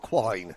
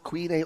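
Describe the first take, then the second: First: The vowel rhymes with 'wine'. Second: The vowel rhymes with 'seen'. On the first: The speaker calls it right. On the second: The speaker calls it wrong.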